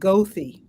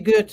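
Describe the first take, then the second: First: It is said with the Chicago pronunciation. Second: It is said with the German pronunciation. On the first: The speaker is a Chicagoan. "But we pronounce it Gothi" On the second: The speaker is not a Chicagoan. "it's supposed to be Goethe. And I suppose any European would pronounce it like that"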